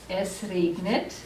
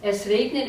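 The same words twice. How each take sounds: First: Slow, careful "Es regnet" with "regnet" drawn out; slow model reading. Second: Said in the usual way. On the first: Shown as a demonstration. Teacher to class, slowly modelling the sentence. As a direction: say "Es regnet" slowly for students to copy.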